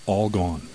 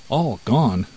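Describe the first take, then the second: First: Said in the usual way. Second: Mild astonished exclamation; shocked cry. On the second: A narrator's reading. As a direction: echo the name with a touch of shock. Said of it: "cried the mouse".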